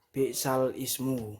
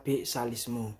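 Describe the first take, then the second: First: Ismu starts as its own separate word. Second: Ismu runs together with the word before. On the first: This is the original form of the phrase. "kalimat yang asli berbunyi seperti ini" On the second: This is the reading with the sound shifted onto the word before. "Jika nakal, maka dibaca bi'salismu"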